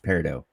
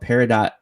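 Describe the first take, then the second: First: The name is said with French pronunciation. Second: The name is said with English pronunciation. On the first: The speaker calls it right. "It's Peridot, so it's French" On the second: The speaker calls it wrong. "I've been saying it wrong"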